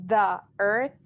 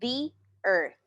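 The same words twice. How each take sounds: First: 'The' is said with a short 'thuh' sound. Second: 'The' is said with a long 'thee' sound. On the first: The speaker calls it wrong. "Yo no puedo decir the earth" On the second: The speaker calls it right. "vamos a decir the earth"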